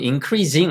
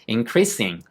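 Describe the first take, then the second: First: The middle consonant is voiced like z. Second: The middle consonant is unvoiced like s. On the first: The speaker calls it wrong. "ing가 붙어도 increasing 아니에요" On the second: The speaker calls it right. "increasing이에요"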